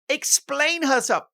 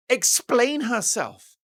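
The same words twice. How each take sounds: First: "Explain herself" hammered with indignation; outraged repeat. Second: "explain herself" punched slow and high; stressed and slow. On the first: Vlogger repeating the demand in disbelief, high and slow. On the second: Vlogger building to the reveal, slow emphatic stress. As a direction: explain herself drawn out, higher and louder. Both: Shown as a demonstration. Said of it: "wait for it".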